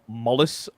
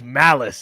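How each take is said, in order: First: The first syllable sounds like 'mull'. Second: The first syllable sounds like 'mal'. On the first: The speaker calls it wrong. "everybody just pronounced it wrong" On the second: The speaker calls it right. "My name is Malice"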